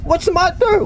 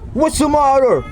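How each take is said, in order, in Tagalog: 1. Pinroseso ang boses para maging parang duwende. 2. Pinroseso ang boses para maging parang halimaw. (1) "Para kasi ako ano, dwarf" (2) "Parang monster, guys. Nag-iiba ang boses"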